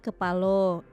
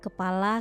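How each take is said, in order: First: It is said in Jambi dialect, ending in o. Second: It is said in standard Indonesian, ending in a.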